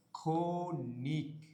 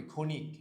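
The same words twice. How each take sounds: First: ক্ষণিক very slowly as "kho... nik"; teacher sounding out ক্ষণিক in two parts; syllable by syllable. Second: Said in the usual way. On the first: Shown as a demonstration. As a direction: stretch ক্ষণিক, first syllable held long, then "nik". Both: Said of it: "এটার উচ্চারণ কি হবে".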